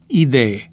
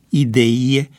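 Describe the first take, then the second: First: The last syllable has a plain e sound. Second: The last syllable has a ye sound. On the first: The speaker calls it right. "Corectă este rostirea" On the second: The speaker calls it wrong. "este incorrectă rostirea"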